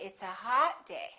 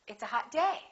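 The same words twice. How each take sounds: First: The word hot carries the strongest stress. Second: The word day carries the strongest stress. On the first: The speaker calls it wrong. "the adjective gets more stressed" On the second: The speaker calls it right. "In English, we stress the noun more"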